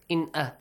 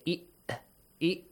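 First: The n sound is pronounced clearly. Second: The n sound is merged and dropped. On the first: The speaker calls it right. "you would say In-A" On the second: The speaker calls it wrong. "You wouldn't say I-A. You wouldn't merge the Noon"

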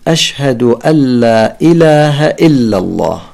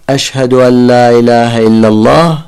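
First: Every glottal stop is pronounced clearly and distinctly. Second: The later glottal stops are left out entirely. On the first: The speaker calls it right. "يجب أن نأتي بنبرة الهمزة" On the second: The speaker calls it wrong. "هذه الهمزات ذهبت"

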